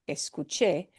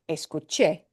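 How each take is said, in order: Both takes have the same delivery.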